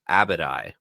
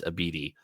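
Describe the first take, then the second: First: The name ends with an 'eye' sound. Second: The name ends with an 'ee' sound. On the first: The speaker calls it wrong. "I pronounced it in our preview chapter as Abadai" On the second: The speaker calls it right. "you're also correct that it is Abidi"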